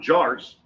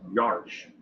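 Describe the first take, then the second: First: The name begins with a J sound. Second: The name begins with a Y sound. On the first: The speaker calls it wrong. "So it's not Jars" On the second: The speaker calls it right. "it's Yarch"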